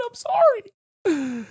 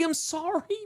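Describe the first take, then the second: First: High, slow, drawn-out sorry with a louder swell. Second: Said in the usual way. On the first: Acted. Streamer hamming up a final apology to chat, high and slow.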